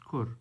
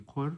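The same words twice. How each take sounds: First: "kur" begun with a k, not a qaf; current pronunciation. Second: "kur" begun with a back-of-throat qaf; original qaf pronunciation. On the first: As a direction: say "kur" with a front k sound. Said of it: "now it's pronounced kur". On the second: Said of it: "It's with a qaf, so it should be". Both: Shown as a demonstration.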